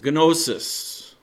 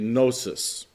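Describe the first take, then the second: First: The initial G sound is pronounced. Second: The initial G sound is silent.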